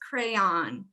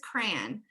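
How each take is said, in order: First: The word is said as two syllables. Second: The word is said as one syllable. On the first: This is how people from other regions say it. "For other people" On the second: This is the speaker's own local way of saying it. "I'm with the one syllable crowd here"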